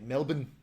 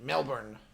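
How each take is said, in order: First: It is said the Australian local way. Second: It is said the American way, with an R.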